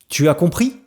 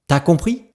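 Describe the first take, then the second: First: Every syllable is pronounced fully and separately. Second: Some sounds are dropped and run together.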